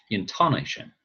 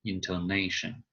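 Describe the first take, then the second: First: Intonation wrongly stressed on TON; inTONation, weight on the second syllable; misplaced stress. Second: Intonation with NA stressed; intoNAtion, weight before the last syllable; stress on second-to-last syllable. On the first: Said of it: "We would never say". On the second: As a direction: say intonation leaning on NA. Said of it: "it's the second to the last". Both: Shown as a demonstration.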